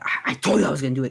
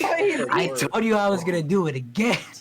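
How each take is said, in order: First: It sounds evil and threatening. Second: It sounds excited and gleeful.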